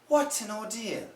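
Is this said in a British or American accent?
British. A British accent with a clear T. "British people received English, the Queen's English, they'll say"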